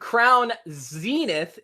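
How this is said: It is said with an American English pronunciation. "is the American English pronunciation"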